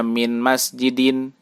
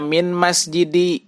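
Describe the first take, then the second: First: "min masjidin" closing on -in; correct tanwin ending. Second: "min masjidi" higher, left open on i; ending without tanwin. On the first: Teacher giving the required reading, "min masjidin" with tanwin. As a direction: finish "min masjidin" with a clear final n. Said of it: "Harus dibaca". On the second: Teacher showing the misreading, "min masjidi" missing its n. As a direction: drop the final n from "min masjidi". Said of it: "Tidak dibaca". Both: Shown as a demonstration.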